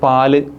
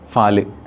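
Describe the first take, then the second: First: The word begins with a plain p sound. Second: The word begins with an f sound. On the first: This is the standard form. "പ എന്ന അക്ഷരത്തിന് പകരം" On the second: This is the local dialect form. "ഫ use ചെയ്യും"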